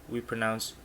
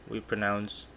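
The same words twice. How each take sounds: No difference in how they are said.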